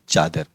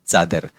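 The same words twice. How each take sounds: First: The word begins with a 'ch' sound. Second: The word begins with a 'ts' sound. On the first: The speaker calls it wrong. "Not चादर" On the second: The speaker calls it right. "हम इस शब्द का च करते हैं, तो कहेंगे चादर"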